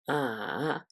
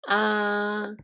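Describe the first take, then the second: First: The pitch falls first, then rises. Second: The pitch stays flat and smooth. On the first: "The third tone falls first, then rises" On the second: "the first tone, which is flat and smooth sound"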